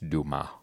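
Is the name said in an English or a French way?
French. The name is said with a French-sounding pronunciation. The speaker calls it right. "it's super French, and it's Dumas"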